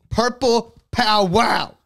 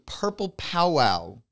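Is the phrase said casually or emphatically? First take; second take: emphatically; casually. First: It is said emphatically, with strong conviction. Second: It is said casually, without extra emphasis.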